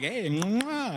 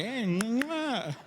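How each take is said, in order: First: Producer's horse cue. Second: Copied horse cue. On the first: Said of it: "He's like". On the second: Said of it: "and I'm like". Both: Retold or imitated.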